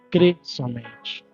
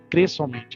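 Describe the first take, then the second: First: It is said with lively enthusiasm. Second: It is said flatly, without expression.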